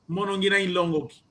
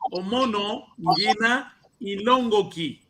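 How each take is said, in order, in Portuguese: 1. As palavras são ditas rapidamente, juntas. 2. As palavras são ditas devagar, cada uma separada. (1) "Senão, eu diria assim" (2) "Eu estou a pronunciar assim é para entenderem"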